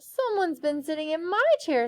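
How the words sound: It is said with a weary sigh.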